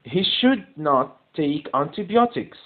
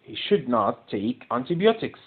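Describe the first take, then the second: First: Very slow, should stressed; teacher reading the sentence slowly to the class, stress on should; slow dictation. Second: Slow, antibiotics stressed; teacher repeating the sentence slowly to the class, stress on antibiotics; slow dictation. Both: Shown as a demonstration.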